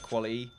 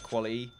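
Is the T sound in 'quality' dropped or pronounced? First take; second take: dropped; dropped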